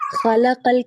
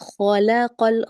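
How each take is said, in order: First: The kh sound is light and thin. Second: The kh sound is heavy and full. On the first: The speaker calls it wrong. "ख़लक़ल के बजाय" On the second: The speaker calls it right. "ख़ को भी पुर कीजिए"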